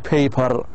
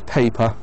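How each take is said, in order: First: The word ends with a clear R sound. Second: The word ends in a vowel without R. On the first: The speaker calls it wrong. "You can't say paper. We don't have R in English" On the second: The speaker calls it right. "It's paper"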